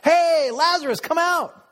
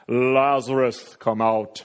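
First: It is called out lightly and playfully. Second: It is called out loudly and solemnly. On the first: It is like a friend inviting someone to play. "Maybe it's like a kid calling out for his buddy to come out and play" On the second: It is like a grand movie moment. "Jesus called in a loud voice"

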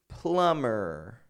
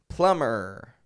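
The two takes are said the same way.

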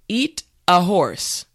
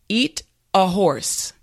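No difference in how they are said.

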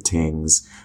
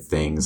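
First: The word begins with a plain t sound. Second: The word begins with a th sound. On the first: "I say tings, T-I-N-G" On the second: "I don't say things"

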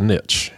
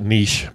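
First: The word is said the local Texas way. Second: The word is said the non-local way. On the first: "I'm in Texas, so it's a niche" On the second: "some of you pronounce it niche"

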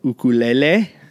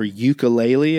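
First: It is said the Hawaiian way. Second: It is said the mainland US way.

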